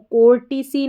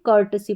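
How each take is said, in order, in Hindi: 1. पहला अक्षर 'kor' जैसा सुनाई देता है। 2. पहला अक्षर 'kur' जैसा सुनाई देता है। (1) "कोर्टिसी नहीं पढ़ेंगे" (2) "कर्टसी पढ़ेंगे"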